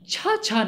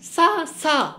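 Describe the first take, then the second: First: The syllable begins with a 'ch' sound. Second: The syllable begins with an 's' sound. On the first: The speaker calls it wrong. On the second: The speaker calls it right.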